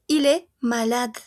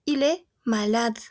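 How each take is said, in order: Both takes have the same delivery.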